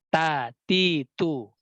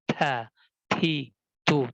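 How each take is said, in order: First: The consonants are plain, without extra breath. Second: The consonants carry a strong puff of breath. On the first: The speaker calls it right. "Tapi ta, ti, tu. Biasa saja" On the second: The speaker calls it wrong.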